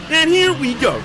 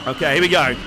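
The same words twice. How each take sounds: First: High, loud excited call. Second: Said in the usual way. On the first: Real, not acted. Streamer as the race launches, high excited shout.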